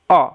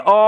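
First: Said in the usual way. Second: "অ" dragged out far too long; overlong vowel. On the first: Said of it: "just অ sound". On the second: Shown as a demonstration. Teacher showing how we won't say it, overlong vowel. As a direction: stretch "অ" into one long held vowel. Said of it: "বেশি টেনে".

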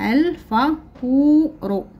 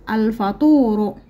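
First: الفطور stretched slowly and lifted; الفطور drawn out slowly. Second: Said in the usual way. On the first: Shown as a demonstration. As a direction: model الفطور slowly for the class. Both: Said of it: "لدينا الكلمات نقرأها".

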